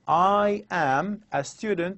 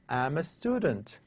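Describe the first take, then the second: First: The first two words are said separately. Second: The first two words are pushed together. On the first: "rather than saying" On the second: "I would say"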